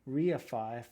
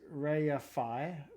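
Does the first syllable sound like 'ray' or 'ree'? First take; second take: ree; ray. First: The first syllable sounds like 'ree'. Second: The first syllable sounds like 'ray'. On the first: This is the American pronunciation. The speaker calls it wrong. "reify for U S" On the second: This is the British pronunciation. The speaker calls it right. "reify for U K"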